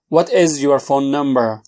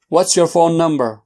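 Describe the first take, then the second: First: It is said slowly and fully. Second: It is said fast.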